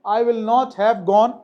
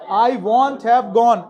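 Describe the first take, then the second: First: 'Will not' is said as two full words. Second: 'Will not' is shortened into one syllable. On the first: "ऐसे ही बोला जा सकता है। दोनों सही है।" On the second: "क्या प्रोनाउंसिएशन होता है विल नॉट का? वॉन्ट भी होता है।"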